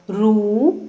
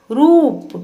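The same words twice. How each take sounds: First: Said in the usual way. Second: रूप with the ऊ held long, higher and louder. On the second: Shown as a demonstration. Teacher repeating रूप for pupils, long and high. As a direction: stretch and lift the ऊ in रूप. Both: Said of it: "लंबे समय तक और ऊंचे स्वर में पढ़ा".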